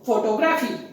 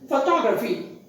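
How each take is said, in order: First: The second syllable is not clearly stressed. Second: The second syllable is clearly stressed. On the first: The speaker calls it wrong. "If we don't mind the stress" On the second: The speaker calls it right. "the stress falls on the second syllable"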